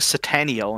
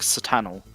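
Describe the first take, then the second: First: The name ends with an 'el' sound. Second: The name ends with an 'o' sound. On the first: The speaker calls it wrong. "I said uh, Satano's name wrong because I kept saying Sataniel" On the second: The speaker calls it right. "it's like Satano"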